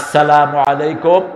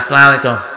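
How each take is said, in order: First: The greeting is pronounced carefully, sounds clear. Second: The greeting is pronounced sloppily, sounds blurred. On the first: The speaker calls it right. "অথচ সালামটা কিভাবে উচ্চারণ করবেন?" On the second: The speaker calls it wrong. "একটা সালামও ঠিক মতো দিতে পারে না"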